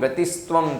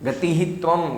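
First: The first word ends in an s sound. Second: The first word ends in a breathy h sound.

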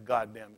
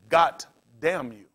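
First: The first word ends with a d sound. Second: The first word ends with a t sound. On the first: "I've never heard anybody say" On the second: "when they get upset, for whatever reason, they'll say"

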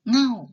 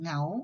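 First: The syllable has a falling tone. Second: The syllable has a rising tone. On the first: "เสียงโท" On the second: "พื้นเสียงเป็นเสียงจัตวา"

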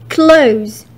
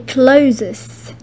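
First: The word does not sound like 'closes'. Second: The word sounds like 'closes'. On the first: The speaker calls it right. "You say clothes" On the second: The speaker calls it wrong. "You don't say closes"

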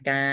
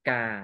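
First: The syllable is said on a level mid tone. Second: The syllable is said on a low tone. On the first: "กออากา" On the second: "ไม้เอกกา"

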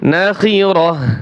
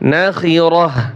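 The two takes are said the same way.

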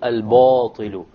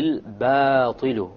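First: The long a-vowel is heavy and full. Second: The long a-vowel is light and thin. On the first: The speaker calls it wrong. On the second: The speaker calls it right.

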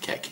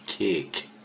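First: The vowel is short, like in 'deck'. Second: The vowel is long, like in 'cake'. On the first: The speaker calls it wrong. "Not kek" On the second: The speaker calls it right.

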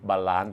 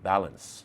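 First: The word is said with a Thai accent. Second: The word is said with an English-style accent.

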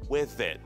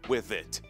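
First: The final T is stopped and not released. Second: The final T is fully pronounced and released. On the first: The speaker calls it right. "Мы говорим with it" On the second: The speaker calls it wrong. "Мы не говорим with it"

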